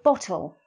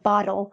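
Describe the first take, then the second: First: The T sound is crisp, British-style. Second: The T sound is soft, American-style. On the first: The speaker calls it right. "go for the slightly more British hmm. accent" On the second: The speaker calls it wrong. "Instead of saying bottle"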